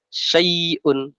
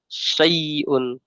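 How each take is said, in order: The two takes are said the same way.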